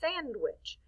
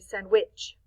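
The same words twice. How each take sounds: First: The stress is on the first syllable. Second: The stress is on the second syllable. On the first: The speaker calls it right. "We say sandwich. So we're actually stressing the accent mark on the first part, the sand" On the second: The speaker calls it wrong. "I don't think we say"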